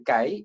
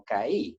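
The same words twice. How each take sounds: First: "kai" as one syllable, stressed on a. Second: "kai" split as ka-Í, i stressed. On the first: Teacher showing how it is said, "kai" stressed on the a. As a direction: glide from a strong a into i in "kai". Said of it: "se dice kai". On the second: Teacher showing how not to say it, "kai" stressed on the i. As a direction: break "kai" in two and hit the i. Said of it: "no kai". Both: Shown as a demonstration.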